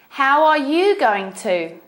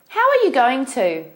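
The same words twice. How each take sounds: First: It is said at a slower pace. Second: It is said at a faster pace.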